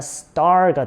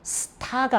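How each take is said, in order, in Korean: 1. 이 단어는 끝에 r 소리가 있어요. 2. 이 단어는 끝에 r 소리가 없어요. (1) "R 발음을 넣어야 되겠죠" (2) "스타가 아니라"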